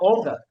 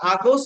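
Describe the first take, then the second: First: The first vowel is a rounded 'o' sound. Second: The first vowel is an open 'a' sound. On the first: The speaker calls it right. "বলবা অগাস্ট" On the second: The speaker calls it wrong. "আগস্ট না বলে"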